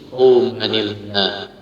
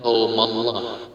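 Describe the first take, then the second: First: The n is kept, joined by an i sound. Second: The n is dropped, running straight into Allah. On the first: The speaker calls it right. "tapi qaumanillah. Dikasrohkan" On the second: The speaker calls it wrong. "jangan qaumallah"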